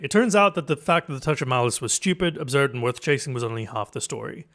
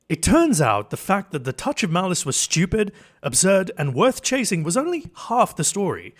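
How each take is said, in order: First: It is said in a casual everyday voice. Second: It is said in a polished narrator voice.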